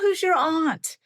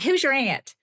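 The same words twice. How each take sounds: First: The vowel in aunt sounds upscale New England. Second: The vowel in aunt sounds Southern American. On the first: The speaker seems upper-class and coastal. "you're thinking Martha's Vineyard" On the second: The speaker seems a casual Southerner. "my patio in Memphis"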